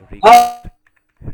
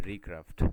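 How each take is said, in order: First: Recraft stretched very slowly, much louder and higher, rising at the end; drawn-out correction. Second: Said in the usual way. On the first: Shown as a demonstration. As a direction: call out Recraft slowly and loudly to fix the student's word. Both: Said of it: "aircraft না".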